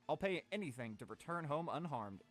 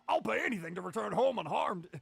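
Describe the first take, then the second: First: It is said in the speaker's own voice. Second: It is said in an imitation of Hercule Satan.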